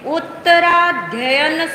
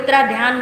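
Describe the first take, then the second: First: The word ends with the full 'adhyayan' sound. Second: The word ends with a shortened 'adhyan' sound. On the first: The speaker calls it right. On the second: The speaker calls it wrong.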